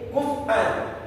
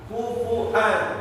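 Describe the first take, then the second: First: The middle has no vowel after the f. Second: The middle has a glottal catch, no w. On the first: This is a third recitation tradition. "fatnya rupanya di sukun, bacanya jadi begini" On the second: This is another imam's recitation tradition. "ditambah hamzah di atas wawu, dibacanya jadi kufuan"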